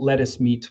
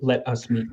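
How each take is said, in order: First: The words are run together quickly. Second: Each word is said clearly and separately. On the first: "when you put it" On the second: "when you um, enunciate it"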